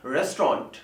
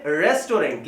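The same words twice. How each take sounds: First: रेस्टोरेंट squeezed to "REST-ront"; correct pronunciation. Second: रेस्टोरेंट in three syllables, "res-to-rent"; common mispronunciation. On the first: Teacher correcting learners, रेस्टोरेंट as two-syllable rest-ront. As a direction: drop the middle "o" in रेस्टोरेंट. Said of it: "ये होता है". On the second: Teacher imitating common error, रेस्टोरेंट as res-to-rent. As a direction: end रेस्टोरेंट on a clear "rent". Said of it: "ये रेस्टोरेंट नहीं होता". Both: Shown as a demonstration.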